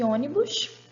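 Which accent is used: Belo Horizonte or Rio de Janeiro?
Rio de Janeiro. It is said with a Rio de Janeiro accent. "dialeto dois do Rio de Janeiro"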